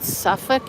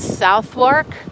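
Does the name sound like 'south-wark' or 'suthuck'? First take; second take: suthuck; south-wark. First: It sounds like 'suthuck', with the middle reduced. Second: It sounds like 'south wark', with both parts full. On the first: The speaker calls it right. "You're supposed to say Suffolk" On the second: The speaker calls it wrong. "I know I'm saying that wrong"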